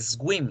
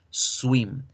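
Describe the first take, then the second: First: The W is said like a hard 'gw'. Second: The W is said like a vowel 'u'. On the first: The speaker calls it wrong. "trataba de hacer la W como la G y la U" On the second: The speaker calls it right. "y no es swim"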